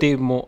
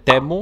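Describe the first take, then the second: First: The first vowel sounds like 'ee'. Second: The first vowel sounds like 'eh'. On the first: "έτσι προφέρεται" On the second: "Κάποιοι το λένε τέμου"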